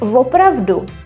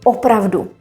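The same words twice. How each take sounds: First: The word starts with an added v sound. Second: The word starts directly with a vowel. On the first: This is the informal spoken form. "If you hear opravdu" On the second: This is the standard form. "the proper word is actually opravdu"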